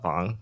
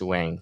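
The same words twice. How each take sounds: First: The name is said with a Chinese pronunciation. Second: The name is said with an English pronunciation. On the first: "but in Chinese it's uh Wang" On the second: "in English, yes, we'll say you know for W A N G it's Wang technically"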